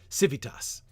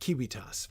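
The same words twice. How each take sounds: First: It uses the church Latin sounds, with a v. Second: It uses the classical Latin sounds, without a v. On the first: The speaker calls it right. "there are V's, for instance" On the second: The speaker calls it wrong.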